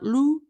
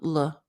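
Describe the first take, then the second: First: The vowel is a long, strongly rounded 'oo'. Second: The vowel is short with lips only slightly out. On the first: The speaker calls it wrong. "Not lu" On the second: The speaker calls it right. "but l"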